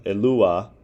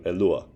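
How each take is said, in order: First: Elua with every vowel full and the U stressed; "Elua" unreduced, U drawn out; full careful form. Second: Elua with the unstressed final A reduced to schwa; "Elua" in fast-speech form, stressed U, reduced A. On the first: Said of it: "in which the U is stressed". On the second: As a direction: say "Elua" quickly, last vowel weakened. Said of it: "Elua reduces to Elua". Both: Shown as a demonstration.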